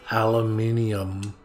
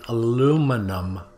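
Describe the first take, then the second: First: The word is said a non-American way. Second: The word is said the American way. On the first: "not aluminium" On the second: "We're in America, we say aluminum"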